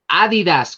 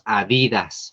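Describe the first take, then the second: First: The stress is not on the middle syllable. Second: The stress is on the middle syllable. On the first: This is how the brand is said to be named now. "como dicen ahora que se debe mencionar esta marca" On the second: This is how people always said it, following the spelling. "Nosotros siempre le dijimos Adidas, porque así se escribe, porque es palabra grave"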